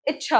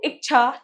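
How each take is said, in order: First: इच्छा as 'ich-chha', with a doubled ch; correct pronunciation. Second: इच्छा said with a k, as 'ik-chha'; mispronounced word. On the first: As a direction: hold the ch in इच्छा, no k sound. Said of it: "होता है". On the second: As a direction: put a k before the chh in इच्छा. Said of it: "नहीं होता". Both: Shown as a demonstration.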